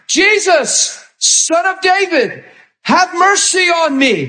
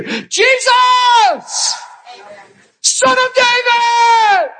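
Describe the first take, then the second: First: Higher, drawn-out plea; pleading beggar. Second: Yelling out. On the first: Blind Bartimaeus begging Jesus, a lifted plea. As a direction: call out for mercy, voice lifted. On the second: Bartimaeus yelling to Jesus over the crowd, full-voiced. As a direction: cry out over the whole crowd. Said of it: "And he yelled above all the chitter chatter". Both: Acted.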